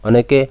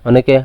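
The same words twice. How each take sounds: No difference in how they are said.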